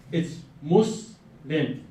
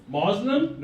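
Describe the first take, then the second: First: Muslim said slowly, MUS-lim with a short u and a clean s; clear pronunciation. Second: Muslim said as MAZ-lem, with a z sound and a rising tune; mispronunciation. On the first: Lecturer modelling Muslim to the class, slow and clear. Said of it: "Everybody say it with me". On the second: Lecturer demonstrating the common wrong Muslim to the class, mockingly. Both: Shown as a demonstration.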